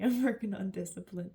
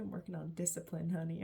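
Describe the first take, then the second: First: Louder repeat through a laugh; amused, laughing self-tease. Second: Said in the usual way. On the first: Real, not acted. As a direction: laugh it out at yourself. Laughing repeat of her own line.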